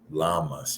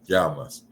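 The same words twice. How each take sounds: First: The double L is said like an L sound. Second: The double L is said like a J sound. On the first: The speaker calls it wrong. "you'll probably pronounce it like" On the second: The speaker calls it right. "the double L is like "ja,""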